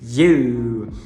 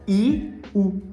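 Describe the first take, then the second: First: It is said as one smooth gliding syllable. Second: It is said as two separate vowels, I and U. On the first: The speaker calls it right. "na verdade a pronúncia é you" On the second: The speaker calls it wrong. "fazendo um I e um U"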